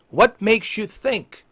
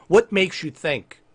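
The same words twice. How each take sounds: First: Higher, deliberately slowed questioning; slow, pointed question. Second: Said in the usual way. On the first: Acted. Streamer questioning Xbox boss, slow and pointed. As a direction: spell out the question with restrained exasperation.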